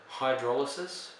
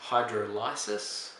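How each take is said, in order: First: "hydrolysis" run together, stressed on DROL; usual word pronunciation. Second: "hydrolysis" slowly, as hydro-LYE-sis; split-word pronunciation. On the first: Teacher naming the term for the class, "hydrolysis" as hy-DROL-uh-sis. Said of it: "which is hydrolysis". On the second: Teacher showing the word's parts, "hydrolysis" slowly as hydro-LYE-sis. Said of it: "Lysis means to split apart". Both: Shown as a demonstration.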